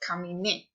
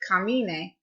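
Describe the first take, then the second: First: The stress falls on the last syllable. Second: The stress falls before the last syllable. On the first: The speaker calls it right. "you do put the stress where the accent mark tells you" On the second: The speaker calls it wrong. "It's not camine"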